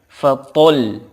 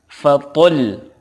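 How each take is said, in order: No difference in how they are said.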